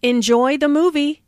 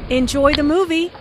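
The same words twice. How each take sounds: First: "movie" lifted up at the end, friendly; friendly, rising on movie. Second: "movie" lifted up at the end, friendly; a cheerful send-off with "movie" rising. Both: Shown as a demonstration. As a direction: let the tune rise on "movie". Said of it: "intonation rises on movie".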